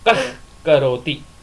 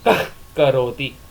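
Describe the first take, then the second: First: The h before k is a half visarga. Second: The h before k is a half visarga.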